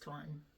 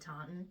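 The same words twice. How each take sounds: First: It is said the local Massachusetts way. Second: It is said in the speaker's general American accent. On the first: This is how the name is properly said. "pretty sure it's Taunton" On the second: This is how the speaker will say it throughout. "You guys are going to hear me say Taunton"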